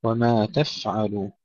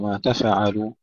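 First: وما تفعل slowly, with a held vowelless f; still, breathed fa. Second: تفعل with a stray vowel bounce after f; bounced fa. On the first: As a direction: hold the f in تفعل with airflow, no bounce. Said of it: "سكون الفاء مع الهمس بدون قلقلة". (وما تفعل بفاء ساكنة مهموسة) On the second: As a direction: bounce the f in تفعل into an extra syllable. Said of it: "بدون قلقلة، لا نقول". (ما تفعل بقلقلة الفاء) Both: Shown as a demonstration.

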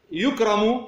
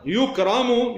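First: يكرم said yukrimu with kasra on the ra; يكرم with an i vowel before the final m; active form. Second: يكرم said yukramu with fatha on the ra; يكرم with an a vowel before the final m; passive form. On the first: Teacher to students, giving the active form, yukrimu. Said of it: "أن تقول أكرم". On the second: Teacher to students, giving the passive form, yukramu. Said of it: "الأصل يكرم إذا كان مبنيًا لل". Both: Shown as a demonstration.

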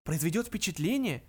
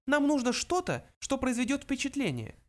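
First: Echoed question, pitched up; mildly scandalised question; incredulous exclamation. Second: High little mouse voice; high-pitched small creature. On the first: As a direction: throw it back in disbelief. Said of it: "воскликнул Артур". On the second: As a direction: state it as a tiny mouse. Mouse Benjy speaks. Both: A narrator's reading.

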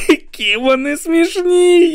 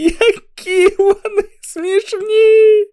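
First: Very high, slow, cry-laughing; sobbing with laughter; laughing almost to tears. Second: Even higher, slower and louder cry-laughing; wailing with laughter; laughing almost to tears. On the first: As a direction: squeeze the words out through helpless laughter. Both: Acted. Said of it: "ледь не плакав від сміху".

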